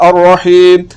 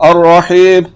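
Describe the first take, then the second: No difference in how they are said.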